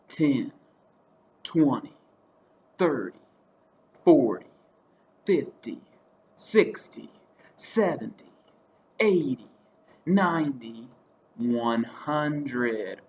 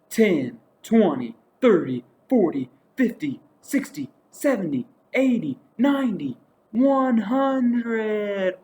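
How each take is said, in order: First: The counting is said slowly. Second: The counting is said fast.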